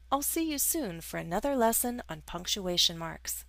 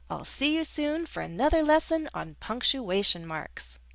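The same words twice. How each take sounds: First: It is said in a calm, neutral tone. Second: It is said with strong, excited emotion.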